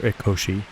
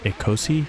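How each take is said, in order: First: The middle consonant is an sh sound. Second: The middle consonant is a plain s sound. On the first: The speaker calls it wrong. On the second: The speaker calls it right.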